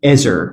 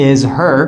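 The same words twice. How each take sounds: First: "is her" as "izzer"; lower, joined is her with no H; dropped H. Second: "is her" with a full H; is and her as two words; unlinked form. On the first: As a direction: link is straight into her. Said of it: "we drop this H". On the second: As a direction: pronounce the H of her. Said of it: "We don't say". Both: Shown as a demonstration.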